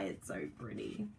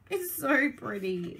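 First: Much lower and much softer; mock-tearful low murmur. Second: Said in the usual way. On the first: Real, not acted. Crafter says the paper makes her want to cry, low soft murmur. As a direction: mumble it as if about to cry.

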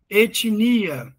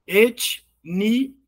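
First: Said in the usual way. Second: "Etnia" split into et, ni, a; syllable by syllable. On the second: Shown as a demonstration. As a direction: pause between the three syllables of "Etnia": et... ni... a. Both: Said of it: "E sílabas?".

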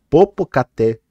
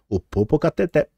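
First: "Popocatépetl" tried again deliberately, each syllable placed; a second, careful go at "Popocatépetl"; careful retry. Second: "Popocatépetl" stumbled, last syllables swallowed as "popokatɛtɛ"; tongue catching on "Popocatépetl"; tongue-tied. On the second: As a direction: trip over "Popocatépetl" and lose the ending. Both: Real, not acted. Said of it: "vai travando".

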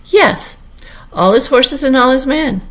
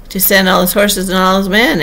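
First: High, loud, proud assertion; boastful Humpty Dumpty. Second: Unwise interruption. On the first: Humpty Dumpty confirming the king's promise, boastfully. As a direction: ring it out high and emphatic. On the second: Alice finishing Humpty Dumpty's boast, interrupting. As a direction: cut in eagerly, a little louder. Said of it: "Alice interrupted rather unwisely". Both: A narrator's reading.

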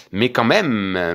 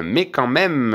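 First: Slow, stretched even so; drawn-out protest. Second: Repeated higher with insistence. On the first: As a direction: drag the words out in disbelief. Protests about the missing letter. (lent et traînant, incrédule) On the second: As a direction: push it up a notch. (repris plus aigu, insistant) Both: Real, not acted.

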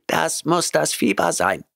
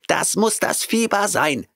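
First: High cat voice, unbothered and even; calm cat. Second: High cat voice, shrieked in panic; screeching cat. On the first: Cat Oliver calmly explaining to Grant, high cat voice. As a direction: shrug it off lightly in the cat voice. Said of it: "bemerkte Oliver gelassen". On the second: Cat Oliver shrieking while fleeing Grant. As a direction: cry it out as he flees. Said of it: "schrie er". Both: A narrator's reading.

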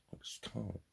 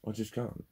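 First: Faint and defeated. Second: Said in the usual way. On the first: Real, not acted. Repeated admission, first take faint.

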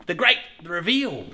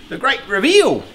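First: Drawn-out announcer reveal; slow grand build-up; slow showman announcement. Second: Louder, higher announcer reveal; loud grand reveal. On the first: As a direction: savour each word of the reveal. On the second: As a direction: proclaim it like unveiling a prize. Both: Shown as a demonstration. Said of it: "as I usually say".

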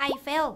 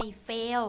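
First: "I fell" with a short open e in fell; "fell" with short eh, not ay; correct pronunciation. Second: "I fail" with a long ay in fail; "fail" with ay, not short eh; mispronunciation demo. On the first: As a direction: say "I fell" clearly, short vowel. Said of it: "ถ้าเกิดว่าออกเสียงผิด อย่างเช่น จาก". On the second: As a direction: draw fell out into "fail". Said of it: "ถ้าเกิดว่าออกเสียงผิด". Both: Shown as a demonstration.

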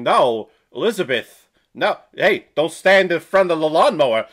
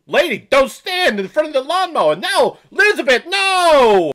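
First: Loud, mock Walken-Jersey warning; a cheap Christopher Walken-Jersey impression, louder; Walken-Jersey accent, firm and loud. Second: Higher, louder mock Walken-Jersey yell; hammed-up Walken-Jersey accent, panicking; Walken-Jersey accent rising to a shout. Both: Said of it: "like a discount Christopher Walken".

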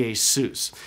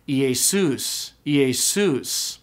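First: Iesus stressed on the last syllable; stress accent. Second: Iesus with pitch rising then falling on the last syllable. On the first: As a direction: lean on the sus of Iesus without a pitch glide. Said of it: "I just use stress". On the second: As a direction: swoop up and down on the end of Iesus. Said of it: "pitch would have gone up and down". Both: Shown as a demonstration.

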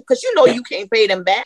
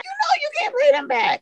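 First: Emphatic call-out. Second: The same line again, far higher and a little softer; emotional repeat. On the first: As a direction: hit it hard, like you've lived it. Emphatic testimony about funeral costs. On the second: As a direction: let the voice jump up high on the repeat. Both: Real, not acted.

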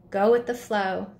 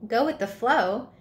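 First: Gentle, sweet parting advice; sweetly. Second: Puzzled, questioning repeat of the phrase; incredulous echo. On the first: The butterfly Flutterby gently advising her friend Spot, sweet. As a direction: say it kindly, like a blessing. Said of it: "Flutterby said sweetly". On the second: Spot confused by Flutterby's advice, incredulous. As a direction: throw the words back in disbelief. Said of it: "Wait, what?". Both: A narrator's reading.

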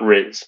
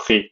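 First: Riz said the English way like rizz; anglicised riz with z; wrong riz. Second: Riz as French "ree", no z; correct riz. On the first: Teacher showing the wrong way to say riz. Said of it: "not riz". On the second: Teacher giving the right riz after the wrong one. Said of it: "but riz". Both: Shown as a demonstration.

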